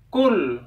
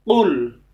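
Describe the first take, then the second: First: It starts with a plain front k sound. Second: It starts with a deep throaty q sound. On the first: The speaker calls it wrong. "kalau dibaca kul maka itu lafalnya kaf" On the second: The speaker calls it right. "yang benar qul, qul di sini cara melafalkan di tenggorokan"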